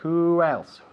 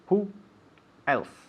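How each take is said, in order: First: The two words run together without a break. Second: The two words are said apart with a break. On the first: The speaker calls it right. "the important thing is here to elide the two words" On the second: The speaker calls it wrong. "Don't say who else"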